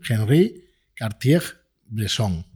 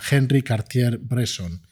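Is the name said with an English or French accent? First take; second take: French; English. First: The name is said with a French accent. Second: The name is said with an English accent.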